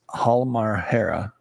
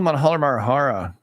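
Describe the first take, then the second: First: The name is said without any extra sound. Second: The name is said with an extra added sound. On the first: The speaker calls it right. "It's it's Halmahera, right?" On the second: The speaker calls it wrong. "I know I have the extra uh, deal"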